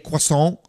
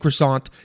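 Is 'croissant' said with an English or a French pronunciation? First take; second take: French; English. First: The word is said with a French pronunciation. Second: The word is said with an English pronunciation. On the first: The speaker calls it right. "Say croissant and café au lait" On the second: The speaker calls it wrong. "Don't say café au lait and croissant"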